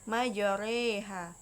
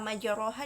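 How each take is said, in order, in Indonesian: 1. Vokal tengahnya dimiringkan ke arah e. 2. Vokal tengahnya adalah a terbuka biasa.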